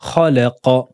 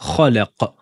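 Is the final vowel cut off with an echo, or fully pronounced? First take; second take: pronounced; cut off. First: The final syllable ends with a clear short a vowel. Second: The final syllable is cut short with an echoing bounce. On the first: The speaker calls it right. "Là, on prononce bien avec la fatha" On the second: The speaker calls it wrong. "On va pas dire khalaqa, comme dans le premier verset où on avait fait la qalqala"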